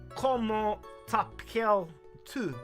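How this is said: It is said with a French accent. "if you're speaking with French"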